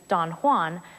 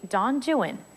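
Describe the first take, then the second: First: Juan is pronounced the Spanish way. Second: Juan is pronounced to rhyme with 'true one'. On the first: This is the familiar pronunciation of the name. The speaker calls it wrong. "the familiar Spanish pronunciation" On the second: This is the pronunciation the poem uses. The speaker calls it right. "Byron's poem is actually"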